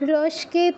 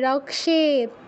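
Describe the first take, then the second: First: The cluster is pronounced as s followed by k. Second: The cluster is pronounced as k followed by sh. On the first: The speaker calls it wrong. "রস্কেত নয়" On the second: The speaker calls it right. "কটা আগে উচ্চারণ করতে হবে"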